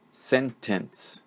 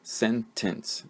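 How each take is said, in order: First: "sentence" in two beats, sen, tence with a full e; syllable by syllable. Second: "Sentence" softer, in two beats with a reduced second vowel; two syllables. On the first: Teacher showing the sixth word's syllables, syllable by syllable. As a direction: sound out "sentence" with both vowels full. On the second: Teacher repeating to show two syllables, second one reduced. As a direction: say "Sentence" as SEN-tuhns, softly divided. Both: Shown as a demonstration. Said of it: "This is two syllables".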